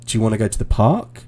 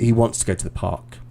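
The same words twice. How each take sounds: First: "Do you wanna go to the park?" said quickly with the pitch rising at the end of "park"; rising question tune. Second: "He, he wants to go to the park." said quickly with the pitch falling on "park"; falling statement tune. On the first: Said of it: "The intonation goes up 'cause I'm asking you a question". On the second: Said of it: "The intonation doesn't rise". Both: Shown as a demonstration.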